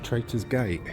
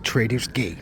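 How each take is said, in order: First: It is said in a British accent. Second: It is said in an American accent.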